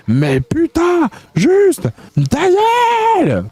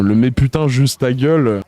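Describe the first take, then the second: First: Hurlé très aigu et lent, à pleine voix; cri exaspéré. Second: Said in the usual way. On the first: Acted. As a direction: explose de rage sur « ta gueule ». Lit hate message, outburst. (hurlement furieux très aigu)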